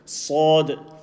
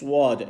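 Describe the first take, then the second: First: The lips stay unrounded, with no glide. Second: The lips round, adding a w-like glide. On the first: The speaker calls it right. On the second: The speaker calls it wrong.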